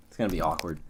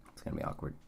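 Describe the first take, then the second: First: Said in the usual way. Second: Breathless, voiceless whisper of it's gonna be awkward. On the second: Real, not acted. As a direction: drop it to a hushed, awkward whisper. Repeats the line, then whispers it.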